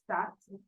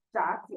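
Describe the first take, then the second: First: 炸鸡 with 炸 rising in second tone; correct second tone. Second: 炸鸡 with 炸 not in second tone, falling; common mispronunciation. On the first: Shown as a demonstration. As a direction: lift 炸 before a level 鸡. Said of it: "second tone". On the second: Retold or imitated. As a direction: drop 炸 in 炸鸡 like a fourth tone. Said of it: "some people will pronounce".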